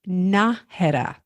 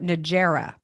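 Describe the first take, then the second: First: The middle consonant sounds like an English H. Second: The middle consonant sounds like an English J. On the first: The speaker calls it right. "It's pronounced Najera. ... you know what a jalapeno is" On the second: The speaker calls it wrong. "Most people call it Najera"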